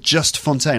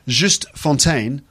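First: The first name is said like English 'just'. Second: The first name is said the French way, Juste. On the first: "I'm going to pronounce it Just" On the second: "I think it's Juste"

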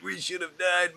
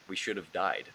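First: It is said in a joking, amused way. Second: It is said in a grave, serious way.

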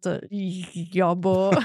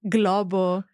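First: The gl is a soft, palatal sound. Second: The gl is a hard g plus l. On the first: The speaker calls it wrong. "so it's not globo. Something that I cannot even say" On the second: The speaker calls it right. "So it's a gl sound"

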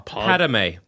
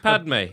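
First: The name is pronounced in a rare variant. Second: The name is pronounced in the common variant. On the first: Only one character says it this way. "You know how Anakin pronounces Padme?" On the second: Most characters say it this way. "Everyone else is Padme"

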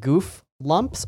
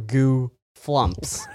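First: The f sound ends the first syllable. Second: The f sound starts the second syllable. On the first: "Is it goof lumps" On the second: "or goo flumps?"

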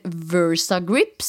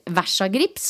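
First: The name is pronounced the English way. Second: The name is pronounced the Norwegian way.

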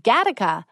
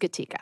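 First: The name is said like the word Gattaca. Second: The name is said as Gatica. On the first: This is how most people mistakenly say the name. The speaker calls it wrong. "Most people say Gattaca" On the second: This is how the family says the name. The speaker calls it right. "but it is Gatica"

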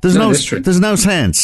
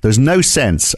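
First: It is said in an imitated, put-on voice. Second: It is said in the speaker's natural voice.

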